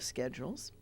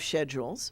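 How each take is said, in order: First: It is said with an American accent. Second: It is said with a British accent.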